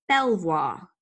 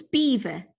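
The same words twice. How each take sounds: First: Belvoir said as BEL-vwar; French-style pronunciation. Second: Belvoir said as "beaver"; surprising correct pronunciation. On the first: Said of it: "I always thought it was". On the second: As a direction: say Belvoir like the animal, BEE-ver. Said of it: "But apparently, it's beaver". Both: Shown as a demonstration.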